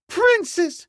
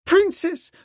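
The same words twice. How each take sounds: First: The name repeated, pitched higher still; beseeching. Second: High, loud pleading cry; beseeching. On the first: Servant girl pleading again, higher and louder. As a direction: beg her, rising even higher. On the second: Servant girl beseeching the princess, high and loud. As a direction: plead with her mistress in a high voice. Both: A narrator's reading. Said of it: "she beseeched".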